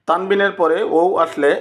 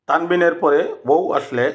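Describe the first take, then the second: The two takes are said the same way.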